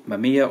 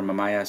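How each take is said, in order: First: Said in the usual way. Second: Mamiya said as mah-MY-ah; the other way of saying Mamiya, mah-MY-ah; alternative pronunciation. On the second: Shown as a demonstration. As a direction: say Mamiya with a long "eye" in the middle. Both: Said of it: "some people pronounce it differently".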